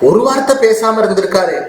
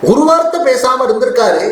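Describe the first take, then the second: First: Said in the usual way. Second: வார்த்தை said higher and pressed in anguish; second time higher and more wounded; emphatic repeat. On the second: Acted. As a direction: repeat it with rising hurt, leaning on வார்த்தை.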